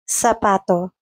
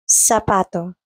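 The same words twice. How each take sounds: First: The first sound is like 'th' in think. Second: The first sound is like an 's'. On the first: This is how it is said in Spain. "In Spain, it's pronounced like the English T H in think" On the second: This is how it is said in Latin America. "While in Latin America, it's pronounced like an S"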